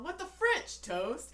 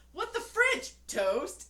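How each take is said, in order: First: Higher, louder shocked squeal; hammed-up indignant cry; mock outrage. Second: High, loud mock outrage; a big indignant squeal; commercial husband outrage. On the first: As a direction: play the husband's shocked outburst. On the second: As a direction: bellow it like a shocked cartoon husband. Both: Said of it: "he's all".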